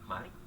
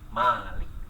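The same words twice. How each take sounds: First: The first vowel is said short. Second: The first vowel is said long. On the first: It means king. "dengan memendekkan mimnya" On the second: It means owner. "memanjangkan mimnya"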